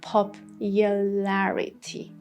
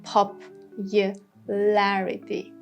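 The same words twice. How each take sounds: First: It is said with a British pronunciation. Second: It is said with an American pronunciation.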